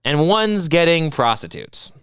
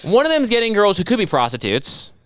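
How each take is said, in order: First: Slow, deliberate "one's getting prostitutes", no hedging; stress on PROSTITUTES. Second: Higher-pitched, pointed "could be prostitutes"; stress on COULD BE. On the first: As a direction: spell out "prostitutes" slowly as the punchline. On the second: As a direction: lean on "could be" to hedge "prostitutes". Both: Shown as a demonstration. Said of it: "You know what I mean by that?".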